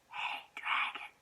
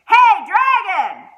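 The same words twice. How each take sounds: First: It is whispered very softly. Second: It is shouted very loudly.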